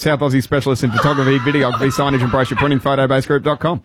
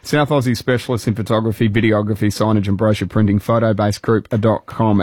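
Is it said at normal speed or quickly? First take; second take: quickly; normal speed. First: It is said quickly, rushed. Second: It is said at a normal pace.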